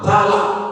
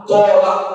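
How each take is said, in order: First: The first vowel sounds like an open 'a'. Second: The first vowel sounds like a rounded 'o'. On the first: This is the common everyday way of saying it. "Orang sering mengucapkannya talak" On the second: This is how it is said in Arabic. "Kalau bahasa Arabnya tolak"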